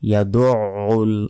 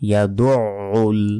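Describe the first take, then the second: First: A tight throat sound comes before the u. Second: A tight throat sound comes before the u.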